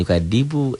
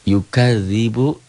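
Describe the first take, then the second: First: The middle consonant is a plain d sound. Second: The middle consonant is a soft dh sound. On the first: The speaker calls it wrong. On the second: The speaker calls it right. "Ini zal gitu"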